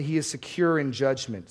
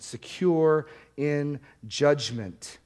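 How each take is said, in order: First: Said in the usual way. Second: Slow emphatic repeat. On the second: Shown as a demonstration. Repeats phrase slowly for emphasis.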